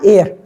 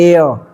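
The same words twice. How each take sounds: First: The final r sound is pronounced. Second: The final r sound is left silent. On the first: "बहुत लोग बोलते हैं ना एयर" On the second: "English accent होती है ना ... र साउंड नहीं करते"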